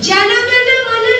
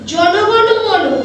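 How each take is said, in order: First: The vowels are open 'ah' sounds. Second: The vowels are rounded 'o' sounds. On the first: The speaker calls it wrong. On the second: The speaker calls it right.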